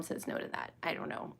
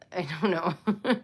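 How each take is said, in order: First: Breathy whisper, almost to herself; whispered aside. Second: Said in the usual way. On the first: Real, not acted. To herself in a whisper while stalling, soft whisper. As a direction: drop to a whisper under her breath.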